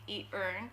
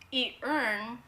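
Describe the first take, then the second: First: It is said quickly. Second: It is said at a normal pace.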